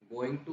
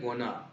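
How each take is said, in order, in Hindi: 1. दोनों शब्द पूरे और अलग-अलग बोले जाते हैं। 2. ये शब्द छोटे होकर आपस में जुड़ जाते हैं। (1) "गोइंग टू होता है" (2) "होता है गोना"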